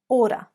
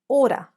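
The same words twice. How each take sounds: Both takes have the same delivery.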